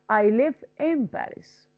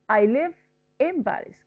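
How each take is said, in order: The two takes are said the same way.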